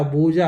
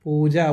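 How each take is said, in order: First: ಬೂಜಾ drawn out with b for p; mistaken pronunciation. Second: ಪೂಜಾ drawn out with initial p; corrective pronunciation. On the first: Retold or imitated. Parent quoting child's slip, slow ಬೂಜಾ with initial b. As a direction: echo the slip ಬೂಜಾ slowly, boo-jaa. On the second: Shown as a demonstration. Parent teaching child the name, slow ಪೂಜಾ with p. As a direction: model ಪೂಜಾ slowly, poo-jaa. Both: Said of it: "ಬೂಜಾ ಅಲ್ಲ".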